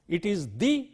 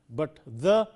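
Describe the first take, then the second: First: The word takes its weak pre-vowel form. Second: The word takes its weak pre-consonant form. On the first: "the before a vowel" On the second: "the before a consonant"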